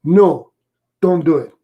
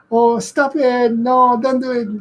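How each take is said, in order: First: Firm no. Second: Sweet cooing. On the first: Shown as a demonstration. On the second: Retold or imitated. Owner mock-scolds dog too sweetly.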